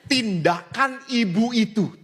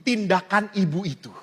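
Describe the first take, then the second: First: Tindakan ibu itu said slowly, each word weighted; slow emphasis. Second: Said in the usual way. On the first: Shown as a demonstration. (ucapkan tindakan ibu itu pelan dan ditekan)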